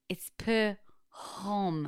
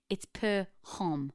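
First: It is said with very strong emphasis. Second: It is said with more emphasis.

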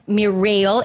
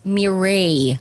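First: The name is said without a French pronunciation. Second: The name is said with a French pronunciation. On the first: The speaker calls it wrong. "It's not Mireille" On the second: The speaker calls it right. "Very French pronunciation"

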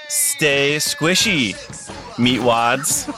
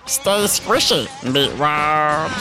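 First: It is said in a normal speaking voice. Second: It is said in a put-on character voice.

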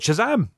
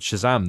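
First: It is said loudly and excitedly. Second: It is said flat and plain.

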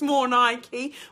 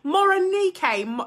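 First: The name sounds like 'more' plus the brand Nike. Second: The name is said as one blended word. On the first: The name is taken to refer to the sports-shoe brand. The speaker calls it wrong. "I thought she likes sports shoes, more Nike" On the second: The name is said as the person's real name. The speaker calls it right. "Is that how you say it?"

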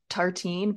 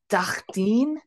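First: It is said with a plain English accent. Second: It is said with a French-style accent.

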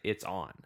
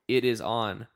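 First: The words 'it is' are contracted to 'it's'. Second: The words 'it is' are said in full. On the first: The speaker calls it right. "That's how you say it" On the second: The speaker calls it wrong. "It's just a statement, stating a fact"

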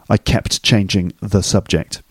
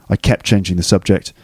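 First: Each word is said separately with a clear t. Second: The words run together and the t fades. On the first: "The unconnected version" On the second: "The connected speech version"

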